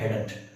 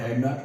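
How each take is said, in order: First: It is said as one contracted word. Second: It is said as two separate full words. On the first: "हम लोग short form में बोलते हैं" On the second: "ये full form है हेड नॉट"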